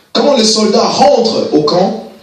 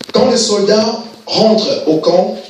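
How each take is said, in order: The two takes are said the same way.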